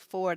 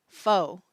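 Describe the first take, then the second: First: The word ends with a clear r sound. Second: The word ends with no r sound. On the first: "they don't say four" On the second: "they say foe"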